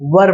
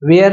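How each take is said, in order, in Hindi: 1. शब्द का अंत छोटी 'er' आवाज़ से होता है। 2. शब्द का अंत 'air' जैसी आवाज़ से होता है। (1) "इसे वर पढ़ते हैं" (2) "वेयर नहीं है"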